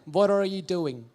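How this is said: It is said in an American English accent. "And in American"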